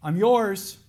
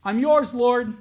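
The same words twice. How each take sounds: First: Louder, higher cry of surrender; pleading cry to God. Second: High, loud plea of surrender; anguished cry to God. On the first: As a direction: offer yourself to God out loud. Repeating the believer's cry. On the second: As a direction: cry out to the Lord in full surrender. Voicing a believer's cry to God. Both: Acted.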